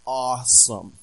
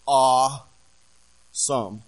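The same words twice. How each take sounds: First: Said in the usual way. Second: Awesome stretched very slow and louder; drawn-out awed awesome. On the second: Shown as a demonstration. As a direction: let awesome linger in awe, not teen slang. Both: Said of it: "not like a teenager uses that word".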